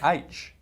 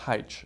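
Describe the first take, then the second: First: The letter name is said the old English way. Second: The letter name is said a non-English way. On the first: This is how someone else insisted it be said. "she was telling me H. You know, the old English way" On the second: This is how the speaker had always said it. "for thirty-nine years I'd been saying H"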